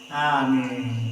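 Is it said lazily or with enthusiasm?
lazily. It is said lazily, without energy.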